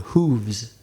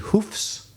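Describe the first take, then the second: First: The word ends with a v sound plus s. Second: The word ends with an f sound plus s. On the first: "hooves with V" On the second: "hoofs with F"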